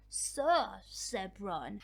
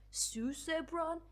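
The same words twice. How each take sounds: First: Slow, careful "Sir Zebron." with "Sir" like the title sir; correct pronunciation. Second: Slow, drawn-out "Sue Zebron?" with "Sue" said like the name Sue; mocking the commenter's "Sue Zebron?", stretched slowly; mock wrong pronunciation. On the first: Shown as a demonstration. Correcting the commenter on the name, slow careful "Sir Zebron.". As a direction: spell out "Sir Zebron." slowly, first syllable like sir. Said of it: "No, it's like". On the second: Teasing a commenter about the name, slow mocking "Sue Zebron?". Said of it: "You were like".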